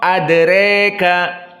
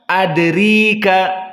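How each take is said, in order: First: The vowel after r leans strongly toward e. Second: The vowel after r is a full i. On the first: "mendekati kepada kasrah" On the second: "jika dikasrahkan"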